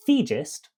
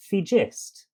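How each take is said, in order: First: "thegist" with the weight on THE, falling away on gist; first syllable stressed. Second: "thegist" with the weight moved onto GIST; second syllable stressed. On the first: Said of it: "focus changes from second to first". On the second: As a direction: punch the last syllable of "thegist", the odd-sounding way. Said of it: "one of them wrong and one of them correct". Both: Shown as a demonstration.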